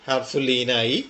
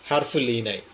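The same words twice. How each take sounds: Both takes have the same delivery.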